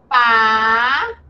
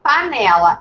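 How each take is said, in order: First: "Pa-ne-la" split slowly into three clear syllables; teacher slowly sounding out "Pa-ne-la" in separate syllables. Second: Said in the usual way. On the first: Shown as a demonstration. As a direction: spell out "Pa-ne-la" slowly, one syllable at a time for the child.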